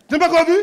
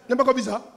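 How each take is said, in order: First: Louder repeat. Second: Said in the usual way. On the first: Real, not acted. Preacher repeats question louder.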